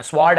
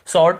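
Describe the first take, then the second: First: स्वॉर्ड with the W sounded, swaard; wrong pronunciation. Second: स्वॉर्ड as sord, the W silent; correct pronunciation. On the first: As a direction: say स्वॉर्ड with a clear W after S. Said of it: "ऐसे नहीं पढ़ना". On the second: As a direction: say स्वॉर्ड with S straight into the vowel. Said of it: "केवल स्वॉर्ड ऐसे पढ़ना है". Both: Shown as a demonstration.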